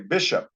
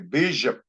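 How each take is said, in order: First: It is said with English pronunciation. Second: It is said with Paiute-style pronunciation. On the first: "they don't say Bishop" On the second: "they say Bishop. That's called Pyuticizing"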